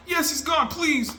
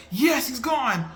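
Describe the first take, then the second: First: Much higher shouted cheer and plea; excited shout. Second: Higher, slow relieved cheer; hopeful cheer. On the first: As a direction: yell it out, begging him to stay gone. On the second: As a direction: cheer as the villain seems gone. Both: Retold or imitated. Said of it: "I'm going back and forth".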